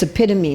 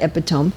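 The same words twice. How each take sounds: First: "epitome" said in four syllables, eh-PIT-uh-mee; correct pronunciation. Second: "epitome" said in three syllables, EP-ih-tome; mispronunciation. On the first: Speaker corrects a word for the audience, "epitome" as eh-PIT-uh-mee. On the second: Speaker shows the audience the mistake, "epitome" as EP-ih-tome. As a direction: make "epitome" end like tome, stressed on EP. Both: Shown as a demonstration. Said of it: "not epitome".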